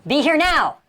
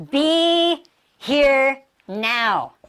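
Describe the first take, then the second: First: Said in the usual way. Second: BE, HERE, NOW each stretched long and separated; very slow, level, word by word; drawn-out words. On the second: Shown as a demonstration. Teacher dwells on each word.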